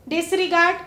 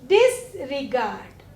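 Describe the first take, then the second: First: Said in the usual way. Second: disregard slow and lower, pause after डिस; slow teacherly disregard in two parts; prefix set apart. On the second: Shown as a demonstration. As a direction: draw out disregard as डिस, then regard. New prefixed word shown slowly.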